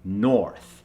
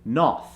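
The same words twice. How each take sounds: First: The R sound after the vowel is pronounced. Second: The R sound after the vowel is dropped. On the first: The speaker calls it right. "we want the American version, which is north" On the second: The speaker calls it wrong. "an Indian accent would drop it completely and say north"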